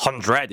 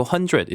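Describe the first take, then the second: First: "hundred" with a heavy, stressed "DRED"; overdone R. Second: Said in the usual way. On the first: Shown as a demonstration. Teacher imitating a flustered learner's mistake, overdone R. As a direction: push the second syllable of "hundred" hard. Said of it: "이렇게 안 하고". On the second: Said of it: "이렇게 얘기를 하겠죠".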